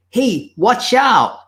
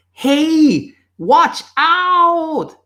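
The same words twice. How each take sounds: First: Higher-pitched call to a friend; acted warning shout. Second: Very high, drawn-out yell to a friend; louder warning shout. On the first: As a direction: shout a drawn-out warning, not full force. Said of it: "you shout out to your friend". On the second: Acted. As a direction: yell the warning with more urgency. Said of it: "So you shout even louder".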